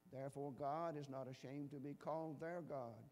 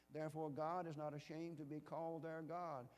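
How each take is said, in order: Both takes have the same delivery.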